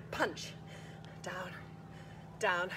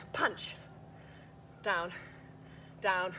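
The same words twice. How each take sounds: The two takes are said the same way.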